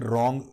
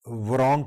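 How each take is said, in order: First: The word begins directly with the r sound. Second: The word begins with an audible w sound. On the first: The speaker calls it right. "रॉन्ग डब्ल्यू silent है" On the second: The speaker calls it wrong. "वरॉन्ग की बजाय"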